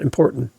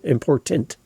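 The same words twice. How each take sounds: First: The word ends on the N, without T. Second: The word ends with a clear T sound. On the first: The speaker calls it wrong. "It ends on the N" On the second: The speaker calls it right. "It ends on a T. The T's there for a reason"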